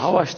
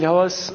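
First: The name ends with an 'sh' sound. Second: The name ends with an 's' sound. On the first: The speaker calls it wrong. "Havaş değil" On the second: The speaker calls it right.

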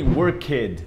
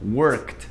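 First: The ending is said as an extra syllable. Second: The ending adds no extra syllable. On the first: The speaker calls it wrong. "Não tem worked, isso não existe" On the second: The speaker calls it right. "aquele E ele não é pronunciado"

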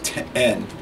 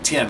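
First: The vowel sounds like the one in 'ten'. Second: The vowel sounds like the one in 'tin'. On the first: "but it's ten" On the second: "people in the South have a tendency to pronounce it like 10, like a tin roof"

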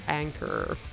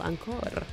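First: The name is said with an English accent. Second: The name is said with a Spanish accent. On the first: "Or Anchor in English" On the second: "Spanish people"

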